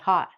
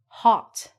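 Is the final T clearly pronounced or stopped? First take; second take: stopped; pronounced. First: The final T is stopped, not released. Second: The final T is clearly released. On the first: "people say hot" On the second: "we look at this and we say hot"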